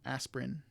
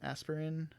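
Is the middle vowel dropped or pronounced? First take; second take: dropped; pronounced. First: The middle vowel is dropped. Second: The middle vowel is fully pronounced. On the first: The speaker calls it right. "it's more of aspirin" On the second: The speaker calls it wrong. "I think I may have heard some people pronounce it aspirin"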